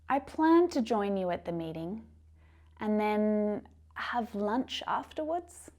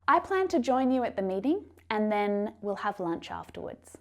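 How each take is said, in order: First: The voice rises at the end. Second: The voice falls at the end. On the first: The speaker is unsure of the plan. The speaker calls it wrong. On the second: The speaker is certain of the plan. The speaker calls it right.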